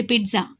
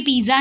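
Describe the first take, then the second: First: पिज़्ज़ा as "peet-sa", with a t before the z; pronunciation model. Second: पिज़्ज़ा as "pee-za", with only a z sound; the common wrong पिज़्ज़ा, "piza"; mistaken pronunciation. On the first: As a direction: say पिज़्ज़ा with a clear ts in the middle. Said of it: "क्या pronunciation है इसका". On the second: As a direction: say पिज़्ज़ा without any t before the z. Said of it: "इसे भी पिज़्ज़ा नहीं बोलते". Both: Shown as a demonstration.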